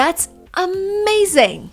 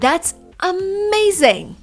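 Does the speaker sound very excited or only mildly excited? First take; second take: very excited; very excited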